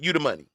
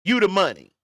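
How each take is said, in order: First: Said in the usual way. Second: YOU punched loud and high, mocking; loud mock emphasis. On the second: Host mocking the guest's boast, loud hammed-up emphasis on YOU. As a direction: throw "You the money" back at him, hammed-up and loud.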